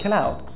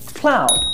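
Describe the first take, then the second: First: An extra vowel breaks up the opening consonants. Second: The opening consonants are said together without a vowel. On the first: The speaker calls it wrong. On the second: The speaker calls it right.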